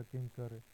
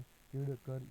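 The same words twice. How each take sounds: First: Said in the usual way. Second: किड़ कर with a hard ḍ before kar; spelled-out nasal form. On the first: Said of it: "अनुस्वार लगाकर लिखा". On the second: Shown as a demonstration. Teacher showing the sandhi of kim plus kar, spelled-out किड़ कर. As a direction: say किड़ कर as kiḍ, then kar. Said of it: "पूर्व वाले व्यंजन के ऊपर अनुस्वार".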